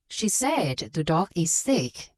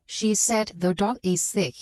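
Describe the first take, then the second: First: Slow "She said the dog is sick", leaning on the key words; stressed key words. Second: Every word given the same weight in "She said the dog is sick"; flat monotone. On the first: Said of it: "it's easier for listener to follow". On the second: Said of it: "flat and monotone". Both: Shown as a demonstration.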